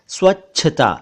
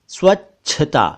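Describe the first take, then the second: Both takes have the same delivery.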